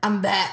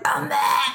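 First: It is said in a clear, normal voice. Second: It is said in a hoarse, groggy voice.

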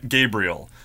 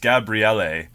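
First: The name is said with English pronunciation. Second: The name is said with Italian pronunciation. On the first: "I'm just going to call him Gabriel" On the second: "which is the Italian way of saying it"

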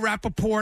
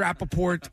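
First: The final T sound is left silent. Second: The final T sound is clearly pronounced. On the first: The speaker calls it wrong. "Some people, they go Rappaport, and I'm like, there's a T there for a reason" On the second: The speaker calls it right. "it's definitely Rappaport"

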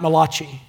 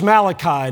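First: The name is said in an Italian-sounding way. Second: The name is said in a plain English way. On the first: The speaker calls it wrong. "not Malachi, the Italian prophet" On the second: The speaker calls it right. "You know it's Malachi"

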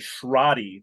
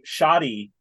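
First: The name is said with an R sound. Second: The name is said without an R sound. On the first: The speaker calls it right. "There is an R in there" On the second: The speaker calls it wrong. "saying shoddy instead of"

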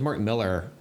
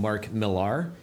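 First: The surname is said to rhyme with Miller. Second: The surname is said not rhyming with Miller. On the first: The speaker calls it right. "just rhymes with Miller, spelled differently" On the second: The speaker calls it wrong. "a lot of people call him Mark Millar"

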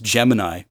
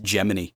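First: The word has its usual star-sign pronunciation. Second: The word has its space-program pronunciation. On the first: The speaker calls it right. "when you look at the star signs, it's Gemini" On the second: The speaker calls it wrong. "they always pronounce it Gemini"

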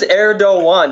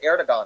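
First: The name is said with a Turkish-style pronunciation. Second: The name is said with an English-style pronunciation. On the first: "that's how you say it"

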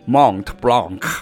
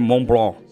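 First: The final t and k sounds are pronounced. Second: The final t and k sounds are silent. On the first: The speaker calls it wrong. "如果你今天是美国人，他就说Mont Blanc，他就会念这样，就是不对" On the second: The speaker calls it right. "可是法文就念Mont Blanc"

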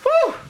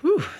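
First: It is higher pitched and louder. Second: It is lower and quieter.

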